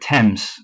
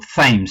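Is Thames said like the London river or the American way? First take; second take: London river; American. First: The name sounds like the London river. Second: The name is said the American way. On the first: This is the speaker's habitual way of saying it. "for me, the River Thames, it's in my head" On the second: This is how the listeners' side says it. "as you guys call him"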